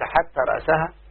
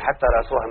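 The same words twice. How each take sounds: First: The word ends in -saha, with an a vowel. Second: The word ends in -suha, with a u vowel. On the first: The head is joined to the fish as something eaten. "جعلناها معطوفة على السمكة" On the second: A new sentence begins: even its head was eaten. "حتى رأسها مأكولة"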